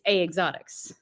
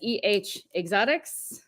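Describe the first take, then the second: First: EH is spoken as one syllable, like eh. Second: EH is spoken as two separate letters. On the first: The speaker is Canadian. The speaker calls it right. "Canadians it's A exotics" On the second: The speaker is American. The speaker calls it wrong. "Americans pronounce it as E H exotics"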